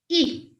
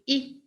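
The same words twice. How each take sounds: First: The vowel is drawn out and long. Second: The vowel is short and clipped. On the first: "it elongates the E and it becomes E" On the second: "E as in if"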